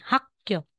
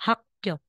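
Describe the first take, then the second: Both takes have the same delivery.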